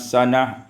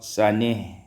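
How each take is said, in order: First: The final vowel is a plain open a. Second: The final vowel leans toward an e sound.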